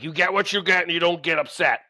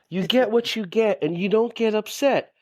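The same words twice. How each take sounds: First: It is said in a harsh, domineering tone. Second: It is said in a soft, tender tone. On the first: The child is being scolded from above. "towering over the person like" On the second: The child is being lovingly soothed. "My dear, my precious soul"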